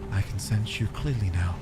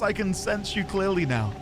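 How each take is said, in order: First: It is said in a put-on echoing voice. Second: It is read in a plain natural voice.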